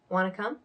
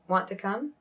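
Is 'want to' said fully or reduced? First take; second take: reduced; fully. First: 'Want to' is blended and reduced into one word. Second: Each word of 'want to' is said fully and carefully. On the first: The speaker calls it right. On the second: The speaker calls it wrong.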